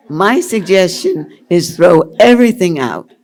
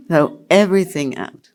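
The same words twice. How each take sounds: First: Emphatic. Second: Said in the usual way. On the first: Real, not acted. Emphatic advice.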